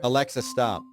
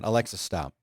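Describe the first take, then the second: First: It is said louder. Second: It is said at normal, softer volume.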